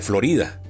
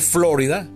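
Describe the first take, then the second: First: The name is pronounced with a Spanish accent. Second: The name is pronounced with an English accent. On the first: "en vez de Florida" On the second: "debería decir entonces Florida"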